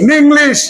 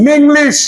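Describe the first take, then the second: Both takes have the same delivery.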